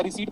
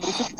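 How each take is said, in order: First: "रिसीट" with no p sound; long ee, then t in "रिसीट"; silent p. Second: "रिसिप्ट" with an audible p; pronounced p. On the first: Teacher repeating the question to students, silent p. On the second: Teacher repeating the question to students, sounded p. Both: Shown as a demonstration. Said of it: "हम रिसिप्ट बोले या रिसीट बोले".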